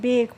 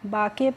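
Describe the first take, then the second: First: It has an 'ay' vowel and a silent final e. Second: It has an open 'aa' vowel and a sounded final vowel. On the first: The speaker calls it right. "बेक पढ़ते हैं" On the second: The speaker calls it wrong. "ये incorrect pronunciation है"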